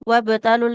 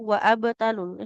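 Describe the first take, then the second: First: The b follows wa directly with no vowel. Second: An extra a vowel is added before b. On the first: The speaker calls it right. "Gak usah dibaca kalau di tengah-tengah" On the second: The speaker calls it wrong. "Jadi bukan"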